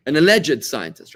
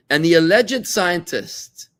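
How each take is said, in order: First: Alleged drawn out slow and louder; "alleged" slowed and punched with scorn; stress on alleged. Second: "alleged" slow, higher and louder; "alleged" much slower, higher, louder; stress on alleged, bigger. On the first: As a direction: lean hard on "alleged". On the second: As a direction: hammer "alleged" with sarcasm. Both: Real, not acted. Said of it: "stress on alleged".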